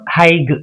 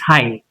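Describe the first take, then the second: First: The gh is sounded in the word. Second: The gh is silent in the word. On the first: The speaker calls it wrong. "It's not high" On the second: The speaker calls it right. "It's high"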